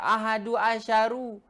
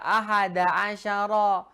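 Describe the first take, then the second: First: Both words end in a u vowel. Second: Both words end in an a vowel. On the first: The speaker calls it wrong. "Nggak boleh dibaca" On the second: The speaker calls it right. "Selalu antum baca ahada asyara"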